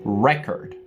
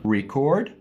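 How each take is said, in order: First: It is pronounced the way the noun sounds. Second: It is pronounced the way the verb sounds. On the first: It names a thing. "Record is the noun" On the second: It names an action. "Record is the verb, the action"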